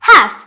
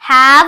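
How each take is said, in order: First: The word ends with an unvoiced f sound. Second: The word ends with a voiced v sound. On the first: The speaker calls it right. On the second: The speaker calls it wrong. "ഹാവ് അല്ല"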